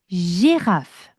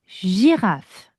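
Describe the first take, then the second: The two takes are said the same way.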